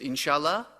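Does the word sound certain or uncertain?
uncertain. It is said in a doubtful, noncommittal way. The answer is maybe. "that means maybe"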